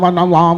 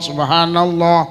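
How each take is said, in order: First: It is said fast, clipped to its last syllables. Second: It is said unhurried, with every syllable clear. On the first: The speaker calls it wrong. "kadang mek genah awale tok" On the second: The speaker calls it right. "gak usah kesusu. Diterampil nih"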